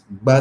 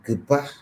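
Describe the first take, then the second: First: G and B merge into one plosive sound. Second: G and B are said as two separate sounds. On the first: This is how a native speaker says it. The speaker calls it right. "we as Tiab speakers, we pronounce this one as ba sound" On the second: This is how a non-native speaker says it. The speaker calls it wrong. "English speakers or the native English people, they will pronounce this one as gba"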